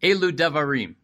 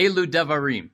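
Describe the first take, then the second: First: It is said dramatically, with a grand buildup. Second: It is said dramatically, with a grand buildup.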